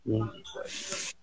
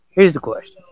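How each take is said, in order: First: Whispered, much softer, almost no voice; hushed whisper of "Here's the question.". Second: Said in the usual way. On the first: Shown as a demonstration. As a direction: breathe it as a secret to the chat.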